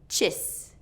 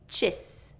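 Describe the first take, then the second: First: The vowel is a short I sound. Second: The vowel is a short I sound.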